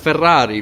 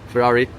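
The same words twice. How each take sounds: First: It is said with an Italian pronunciation. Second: It is said with an American pronunciation. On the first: The speaker calls it right. "Well, it's Ferrari, bro" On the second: The speaker calls it wrong. "all these Americans who say like"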